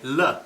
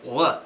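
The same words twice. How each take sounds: First: The L is light, with tongue back low. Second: The L is dark, with tongue back raised. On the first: "when the L is closer to the beginning of a syllable, we say L" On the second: "if it's closer to the end, you'll hear L"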